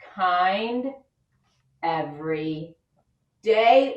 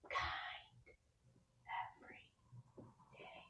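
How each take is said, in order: First: It is spoken in a normal voice. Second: It is spoken in a whisper.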